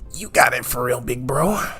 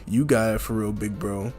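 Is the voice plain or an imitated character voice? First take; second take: character voice; plain. First: It is said in an imitation of the character's voice. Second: It is said in a voice unlike the character's. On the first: The speaker calls it right. "He'd sound more like" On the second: The speaker calls it wrong. "that's not how Shigaraki would sound"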